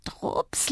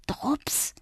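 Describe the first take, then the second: First: Soft whispered call. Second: Breathy whisper to her own reflection. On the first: Girl at the mirror whispers to Drups. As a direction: whisper the name again, coaxing. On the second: Girl at the mirror whispers Drups. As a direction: whisper his name hopefully. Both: A narrator's reading. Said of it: "flüsterte ich meinem Spiegelbild zu".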